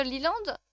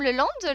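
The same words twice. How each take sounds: First: Liland with "lee" first; tentative Liland, first vowel a long ee; trying a pronunciation. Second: Le Land with a French "le" first; tentative Le Land, first vowel as in "le"; trying a pronunciation. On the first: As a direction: say Liland as "lee-land", questioning. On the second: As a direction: say Le Land as "leu-land", questioning. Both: Shown as a demonstration. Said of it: "ça se prononce comment le troisième?".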